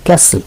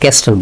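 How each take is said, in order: First: No 't' sound is heard in the middle. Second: A 't' sound is heard in the middle. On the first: The speaker calls it right. "আমরা বলি ক্যাসেল" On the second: The speaker calls it wrong. "ক্যাসেলের উচ্চারণ আমরা ক্যাস্টেল বলি না"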